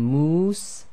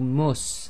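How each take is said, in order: First: The vowel is held long. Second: The vowel is cut short. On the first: "you go from moose" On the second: "if you half that to give you the just the single dhamma"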